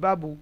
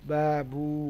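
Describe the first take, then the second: First: The vowels are short, with no stretching. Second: The vowels are stretched out long. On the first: "কোনো টান নেই" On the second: "তাহলে টান হয়ে যাবে"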